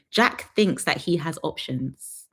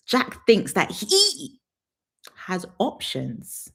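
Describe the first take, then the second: First: Slow and deliberate. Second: Very slow, drawn out. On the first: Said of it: "slow emphatic delivery". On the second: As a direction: stretch each word, very slow. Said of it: "drawn-out repeat". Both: Shown as a demonstration.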